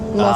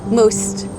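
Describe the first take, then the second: First: The word ends without a clear s-t sound. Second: The word ends with a clear s-t sound. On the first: The speaker calls it wrong. "but you said like moth" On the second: The speaker calls it right. "S T"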